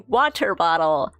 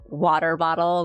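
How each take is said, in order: First: The t's are pronounced as clear, crisp t's. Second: The t's are flapped, sounding like soft d's. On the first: "I meant to say water bottle" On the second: "we have like D sounds for T's"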